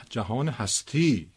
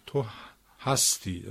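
First: جهان هستی slow, stress on the final تی; noun stress. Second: تو هستی with stress on هَس, falling away; verb stress. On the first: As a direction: say هستی as "existence", leaning on its last syllable. (جهان هستی با تکیه روی هجای آخر) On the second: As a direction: say هستی as "you are", first syllable stressed. (تو هستی با تکیه روی هجای اول) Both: Shown as a demonstration. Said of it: "این فشار و این نبر".

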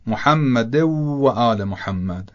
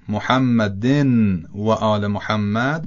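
First: محمد followed by a clear separate و; correct, no merging. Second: محمدن with the n run into و; merged n sound; merged nun. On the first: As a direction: keep محمد and و apart, no n. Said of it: "درسترش اینه که". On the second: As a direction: slide the n of محمدن into the w. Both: Shown as a demonstration.

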